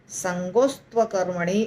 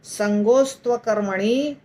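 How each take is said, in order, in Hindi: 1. यह वाक्यांश एक ही शब्द की तरह जुड़कर बोला जाता है। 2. यह वाक्यांश एक ही शब्द की तरह जुड़कर बोला जाता है।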